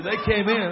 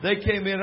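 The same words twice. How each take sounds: First: "in" pushed louder, the line landing on "in"; they came IN, hit the last word; stress on in. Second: "They" pushed first, the rest falling away; THEY came in, lean on the first word; stress on they. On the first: Preacher to congregation, stress on IN. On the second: Preacher retelling Aunt Tassie's arrival, stress on THEY. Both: Shown as a demonstration.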